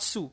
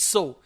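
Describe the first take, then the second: First: The vowel differs from the vowel in 'so'. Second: The vowel matches the vowel in 'so'. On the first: The speaker calls it wrong. "we actually mispronounce it as sew. It's not sew" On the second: The speaker calls it right. "S E W and S O W. Both are pronounced sew"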